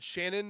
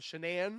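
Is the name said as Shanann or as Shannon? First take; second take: Shannon; Shanann. First: The name is said like the common name Shannon. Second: The name is said in its own form, Shanann. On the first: The speaker calls it wrong. "I've caught myself saying it wrong" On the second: The speaker calls it right. "instead of Shanann"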